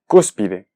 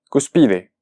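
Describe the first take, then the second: First: The stress is on the first syllable. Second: The stress is on the second syllable. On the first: The speaker calls it right. "yo dije cúspide" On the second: The speaker calls it wrong. "su pronunciación sería cuspide"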